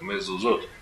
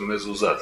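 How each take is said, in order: First: The final vowel is pronounced as 'o'. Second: The final vowel is pronounced as 'a'. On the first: It is read by the accepted plural tradition. The speaker calls it right. "мы читаем как «Мезузот»" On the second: It is read strictly as spelled, without the letter vav. The speaker calls it wrong. "если читать, как написано, получится «Мезузат»"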